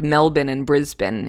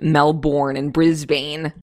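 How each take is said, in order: First: The names have the Australian pronunciation. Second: The names have a non-Australian pronunciation. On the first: The speaker calls it right. "I will default to what they say" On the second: The speaker calls it wrong. "instead of"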